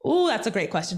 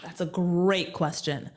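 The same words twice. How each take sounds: First: Said in the usual way. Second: Slow musing. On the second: Real, not acted. Guest slowly mulls the host's challenge question. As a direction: stretch it out while you think.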